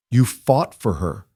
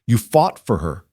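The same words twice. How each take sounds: First: "You" stressed, slow, rising. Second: Said in the usual way. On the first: A narrator's reading. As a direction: correct her by hitting "You". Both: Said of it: "Cullen corrected".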